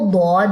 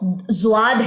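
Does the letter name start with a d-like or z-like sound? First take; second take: d-like; z-like. First: The word begins with a d-like sound. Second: The word begins with a z-like sound. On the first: This is the Arabic pronunciation used for Quran recitation. "अरबी एक्सेंट ... वहां पे इसकी जो प्रोनाउंसिएशन है वो दौद है" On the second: This is the Urdu-accent pronunciation. "वो ज़्वाद है उर्दू एक्सेंट में"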